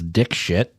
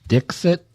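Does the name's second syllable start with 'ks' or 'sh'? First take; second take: sh; ks. First: The name is said with a 'sh' sound. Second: The name is said with a 'ks' sound. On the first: Someone else mispronounced the name as an insult. The speaker calls it wrong. "he was pronouncing it as dick shit" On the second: This is how the name is meant to be said. The speaker calls it right. "her last name is pronounced Dixit"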